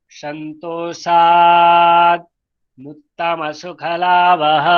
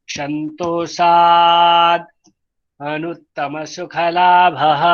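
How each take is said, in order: No difference in how they are said.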